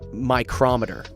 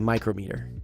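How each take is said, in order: First: The stress is on the second syllable. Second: The stress is on the first syllable. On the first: The speaker calls it wrong. "we don't say m- micrometer" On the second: The speaker calls it right. "we say micrometer"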